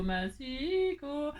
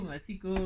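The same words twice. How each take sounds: First: "massicot" stretched very slowly, syllable by syllable; drawn out. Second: Said in the usual way. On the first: Shown as a demonstration. Crafter annoyed at her paper cutter, drawling "massicot" very slowly. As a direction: draw out "massicot" like a grumble.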